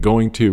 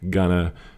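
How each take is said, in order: First: Both words are said fully and separately. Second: The words blend into one reduced word. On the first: This is the written form. "Going to written" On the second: This is how it is spoken. "gonna spoken"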